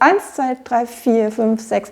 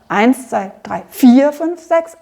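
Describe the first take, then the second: First: Only eins is stressed; vier flows on lightly. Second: Both eins and vier carry a strong stress. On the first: The second group follows the first smoothly. The speaker calls it right. "wir betonen eigentlich nur den ersten von diesen beiden Dreiertakten" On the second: The bar is felt as two equal groups. The speaker calls it wrong. "Wir spielen also nicht so sehr"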